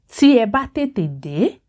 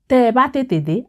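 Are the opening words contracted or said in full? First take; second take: full; contracted. First: The opening words are said in their full form. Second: The opening words are run together in contracted form. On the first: "when writing, it is tí ẹ bá" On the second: "you would most likely hear tí ẹ bá as tẹ́ ẹ bá"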